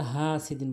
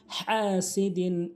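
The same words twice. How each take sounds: First: হাসিদিন with a soft ordinary h, unchanted; common mispronunciation. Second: হাসিদিন slow, with a strong throaty h; correct recitation. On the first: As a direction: say হাসিদিন with Bengali h. (হাসিদিন সাধারণ হ দিয়ে) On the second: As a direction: push h from mid-throat and stretch হাসিদিন. (হাসিদিন বড় হা দিয়ে টেনে) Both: Shown as a demonstration. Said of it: "এখানে আমরা হাসিদিন বলি".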